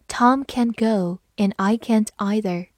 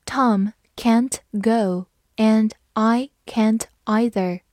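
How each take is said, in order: First: Said in the usual way. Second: "Tom can't go and I can't either" read slowly; slow it down word by word. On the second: Shown as a demonstration. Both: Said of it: "慢慢来读".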